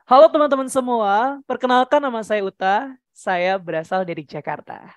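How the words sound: The pitch starts high and moves down low. "Kauta pengen dari tinggi ke rendah"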